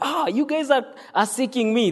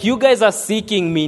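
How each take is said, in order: First: It sounds warm and pleased. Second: It sounds blunt and rebuking.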